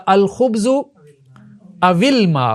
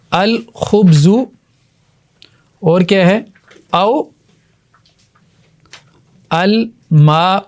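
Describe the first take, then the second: First: الخبز او الماء read as الخبز وِلماء, the و given a kasra; joined with kasra. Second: الخبز then او الماء with a pause, الماء drawn out slowly; separate words. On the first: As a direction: slide the kasra onto و: وِلماء. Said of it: "پہلے ساکن کو زیر دے دیتے ہیں". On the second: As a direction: keep the hamza, say او and الماء apart. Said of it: "ٹھیک ہے، یہی ہونا تھا". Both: Shown as a demonstration.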